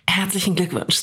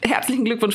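First: It is spoken in a sultry, seductive voice. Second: It is spoken in a radio announcer voice. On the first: "Die ist schon fast pornös" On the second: "Das ist meine Radio-Geburtstagsstimme"

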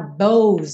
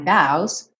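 First: The word is said with a closed vowel. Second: The word is said with an open vowel. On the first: The speaker calls it wrong. "Cuidado para não falar bows aí. A escrita sugere uma pronúncia fechada" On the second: The speaker calls it right. "mas a pronúncia é aberta"

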